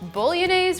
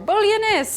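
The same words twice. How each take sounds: First: The word is pronounced the English way. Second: The word is pronounced the Italian way.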